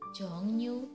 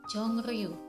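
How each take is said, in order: First: The second syllable begins with an n sound. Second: The second syllable begins with an r sound. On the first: The speaker calls it right. "tapi yang benar pengucapannya adalah jongnyu" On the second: The speaker calls it wrong. "harusnya dibaca jongriu"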